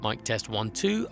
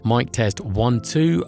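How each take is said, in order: First: Both lowered level and cut low frequencies. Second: The level is lowered by a pad. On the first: "with the minus ten D B pad and the eighty hertz high pass filter" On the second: "the minus ten D B pad has been engaged"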